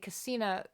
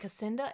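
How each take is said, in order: First: No d sound comes before the final vowel. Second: A d sound comes before the final vowel. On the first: The speaker calls it right. "It's not Casinda. It's I want to say Casina" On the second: The speaker calls it wrong. "I also always add a D in"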